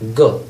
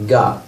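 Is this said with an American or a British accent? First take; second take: British; American. First: It is said with a British vowel. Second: It is said with an American vowel. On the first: "the British say got" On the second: "the American people say got"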